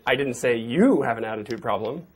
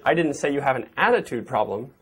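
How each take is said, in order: First: The stress is on the word you. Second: The stress is on the word attitude.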